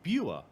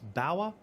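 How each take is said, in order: First: The name is said like 'Buer', with a shorter vowel. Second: The name is said like 'Bauer', rhyming with 'power'. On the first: This is how it reads from the spelling. The speaker calls it right. "it sounds like Buer" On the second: This is how Americans might say it. The speaker calls it wrong. "Maybe Americans might pronounce this Bauer"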